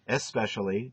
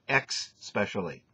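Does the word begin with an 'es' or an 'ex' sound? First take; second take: es; ex. First: The word begins with an 'es' sound. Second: The word begins with an 'ex' sound. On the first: The speaker calls it right. "It's not the way it's pronounced" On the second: The speaker calls it wrong. "You pronounce it X-specially"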